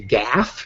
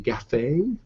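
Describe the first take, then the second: First: It is one syllable rhyming with laugh. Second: It is two syllables rhyming with cafe. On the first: "rhymes with laugh"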